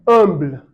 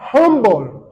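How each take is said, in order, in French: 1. Le h initial est muet. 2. Le h initial se prononce. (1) "Nous, on va dire humble" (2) "Eux vont dire humble"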